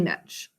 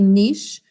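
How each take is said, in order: First: The word ends with a 'ch' sound. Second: The word ends with an 'sh' sound. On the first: "but some people say niche" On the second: "the French say the ch as a sh sound. So it should technically be niche"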